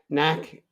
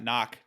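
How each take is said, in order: First: The vowel rhymes with 'snack'. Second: The vowel rhymes with 'lock'. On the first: The speaker calls it right. "Like like you're gonna have a snack" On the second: The speaker calls it wrong. "not knock"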